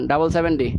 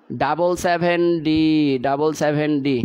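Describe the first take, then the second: First: Said in the usual way. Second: Drawn out slowly so students can follow; teacher slowing down to dictate the answer; slow and deliberate. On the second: Shown as a demonstration. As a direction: spell out double seven D slowly for the class. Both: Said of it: "আমি আরও আস্তে পড়াচ্ছি".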